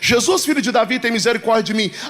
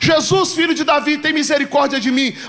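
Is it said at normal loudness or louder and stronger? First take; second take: normal; louder. First: It is said at a normal loudness. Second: It is said louder and more forcefully.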